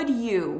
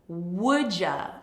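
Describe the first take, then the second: First: The d and y sounds stay separate. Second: The d and y merge into a j sound.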